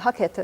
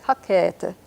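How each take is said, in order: First: Hakete with the middle E cut short; short middle vowel. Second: Hakete with the middle E drawn out; long middle E. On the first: Teacher shows learners the mistake, short middle E in Hakete. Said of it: "It's not Hakete". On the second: Teacher corrects learners, long middle E in Hakete. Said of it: "has a long E in the middle". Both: Shown as a demonstration.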